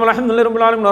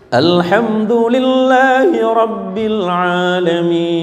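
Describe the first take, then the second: First: It is recited very fast, like a bullet. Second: It is recited slowly and carefully.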